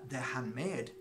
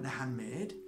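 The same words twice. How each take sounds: First: Said in the usual way. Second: "handmade" rising at the end as a question; questioning echo. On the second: Retold or imitated. Echoes the boy's reply as question.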